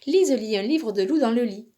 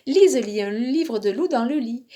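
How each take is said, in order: The two takes are said the same way.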